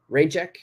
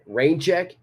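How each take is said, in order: First: "Rain check?" with the pitch climbing on "check"; clipped request, up at the end; rising question tune. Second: "Rain check" asked with the pitch going up at the end; short two-word question, voice rising on "check"; rising question tune. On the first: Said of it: "I reduce it to just". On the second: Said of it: "intonation goes up, it's a question". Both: Shown as a demonstration.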